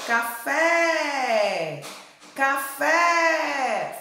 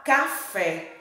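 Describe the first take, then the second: First: "Café" with a long, raised FÉ; calling out the word. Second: Said in the usual way. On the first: Shown as a demonstration. Teacher calls "Café" for pupils to copy, calling out. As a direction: call "Café", stretching the last syllable and letting it fall. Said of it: "Qual foi a sílaba que mais se alongou?".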